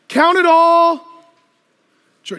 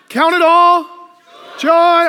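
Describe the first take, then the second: First: It is said in a flat, gloomy tone. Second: It is said in a bright, joyful tone. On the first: The speaker calls it wrong. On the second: The speaker calls it right.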